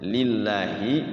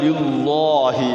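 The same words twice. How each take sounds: First: The l in Allah sounds light and thin. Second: The l in Allah sounds heavy and dark. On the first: The speaker calls it right. "Kalau yang tipis itu kasroh" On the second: The speaker calls it wrong. "Kalau tebal lillahi jadinya"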